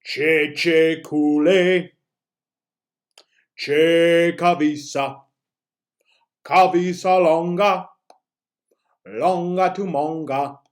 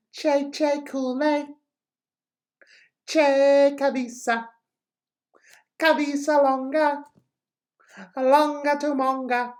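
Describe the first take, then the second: First: Very slow, louder, drawn-out chant; teacher demoing the chant slowed way down. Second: Much higher, bright-faced, slow chant; teacher demoing a high happy version of the chant; higher, happier voice. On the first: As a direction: stretch every syllable of the chant out. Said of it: "let's slow it down a little". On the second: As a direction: sing it up high like you're delighted. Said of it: "in a higher voice with a little bit more of a happier expression". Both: Shown as a demonstration.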